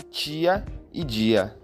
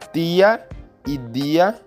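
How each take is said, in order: First: The t and d are palatalized, like ch and j. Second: The t and d are plain stops. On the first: This is the form in most Brazilian dialects. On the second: This is the older form, still kept in Pernambuco.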